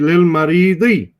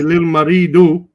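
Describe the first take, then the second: First: The last word ends with an 'i' vowel. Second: The last word ends with an 'u' vowel. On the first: The speaker calls it right. "Say lil maridi" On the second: The speaker calls it wrong. "Don't say lil maridu"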